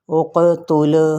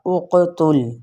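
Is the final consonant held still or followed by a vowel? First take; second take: vowel added; held still. First: The silent consonant is moved with a vowel. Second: The silent consonant is held firmly without vowel. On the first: The speaker calls it wrong. "साकिना हरूफ को पढ़ते वक्त हिला देते हैं" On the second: The speaker calls it right. "पूरी मज़बूती और जमाव के साथ मखरज से इसको अदा करना है"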